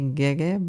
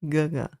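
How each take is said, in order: First: It is said the way the English dub says it. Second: It is said with the original, unanglicized pronunciation. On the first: The speaker calls it wrong. "when you listen to the audio, the English audio, they say gege" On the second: The speaker calls it right. "it's not gege, it's gaga"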